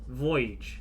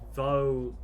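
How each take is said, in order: First: It is said as two syllables, like voyage. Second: It is said as one syllable, like vogue. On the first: The speaker calls it right. "Void with a G" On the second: The speaker calls it wrong. "Pronounce this wrong"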